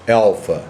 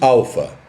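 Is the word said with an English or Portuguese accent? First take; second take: English; Portuguese. First: It is said with an English pronunciation. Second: It is said with a Portuguese pronunciation. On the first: "uma pessoa que fale inglês simplesmente diga alfa" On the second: "nós falamos alfa"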